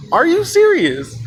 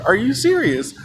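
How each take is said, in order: First: High, slow incredulous outburst; escalated disbelief. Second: Mildly incredulous question; imitated disbelief. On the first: Retold or imitated. Embarrassed girl repeating her question, high, slow incredulous outburst. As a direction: stretch it out high in mock outrage. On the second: Embarrassed girl to the storyteller, contained incredulous question.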